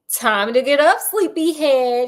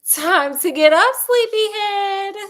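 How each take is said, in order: First: The line is read out flatly. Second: The line is acted in a cheerful voice.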